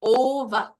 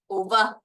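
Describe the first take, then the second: First: "Ova" as OH-va, long loud O; stress on first syllable. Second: "ova" as oh-VA, weight moved to VA; stress on second syllable. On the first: Teacher gives first option to learners, stress on first syllable of "Ova". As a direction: stretch and hit the O of "Ova", OH-va. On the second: Teacher gives the other option to learners, stress on second syllable of "ova". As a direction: keep the O short in "ova", land on VA. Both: Shown as a demonstration. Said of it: "two options of how it might be pronounced".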